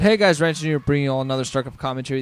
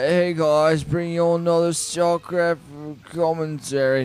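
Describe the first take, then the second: First: It is said in a livelier, more energetic voice. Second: It is said in a tired, low-energy voice.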